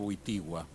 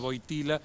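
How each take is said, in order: First: The name is said with a w-like sound. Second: The name is said with a plain l sound. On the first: This is how the name is really pronounced. "en realidad" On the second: This is the usual local way of saying it. "el Papa era"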